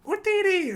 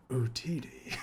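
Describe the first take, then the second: First: High squeaky alien yelp; squeaky Jawa cry. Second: Low, quiet, menacing Darth Maul; sinister voice. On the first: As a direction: chirp it like a tiny Jawa. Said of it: "the Jawas go". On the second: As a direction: say it darkly, like a villain. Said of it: "in his very, like, sinister voice". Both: Retold or imitated.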